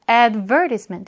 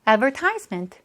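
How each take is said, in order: First: The stress is on the second syllable. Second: The stress is on the third syllable. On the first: "여기에 강세가 있을 때도 있어요" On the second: "먼트 앞은 대체로 이 앞부분에 강세가 있더라"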